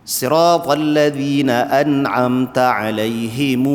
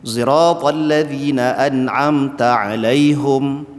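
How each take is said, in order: Both takes have the same delivery.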